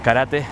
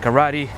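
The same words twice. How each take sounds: First: The word has a non-English, native-style pronunciation. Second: The word has a typical English pronunciation.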